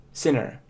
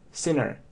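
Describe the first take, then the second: The two takes are said the same way.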